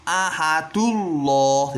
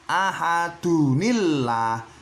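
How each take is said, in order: First: No n sound joins the words. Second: A short plain n sound joins the words. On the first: The speaker calls it wrong. "Ahadullah tidak boleh" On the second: The speaker calls it right. "cara bacanya harus ahadunillah"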